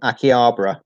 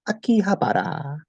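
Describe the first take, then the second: First: It is said with an English pronunciation. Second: It is said with a Japanese pronunciation. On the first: "or in English, uh, English people" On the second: "on the trains, the announcer goes"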